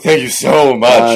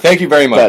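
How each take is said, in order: First: It sounds sarcastic. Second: It sounds sincere.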